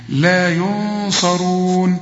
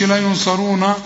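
First: Slow لا ينصرون with the nun hidden; correct recitation. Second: Fast لا ينصرونا with the nun clear and the ending vowel added; wrong way. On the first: Teacher models the right reading, slow. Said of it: "ما تقولش لا ينصرون". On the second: Teacher imitates the mistake, mock wrong. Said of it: "ما تقولش". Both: Shown as a demonstration.

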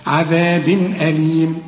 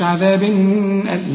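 First: "عذاب أليم" with a crisp n before the hamza, unhummed; slow recitation, clean break into "أليم"; clear izhar. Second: "عذاب" with a wrongly hummed n at the tanween; faulty recitation, nasal hold after "عذاب"; wrong added ghunna. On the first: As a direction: pronounce the tanween of "عذاب" clearly, no nasal hold. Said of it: "الهمزة برضو من حروف الإظهار". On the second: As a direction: mistakenly linger nasally on the ending of "عذاب". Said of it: "إذا ما تقولش". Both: Shown as a demonstration.

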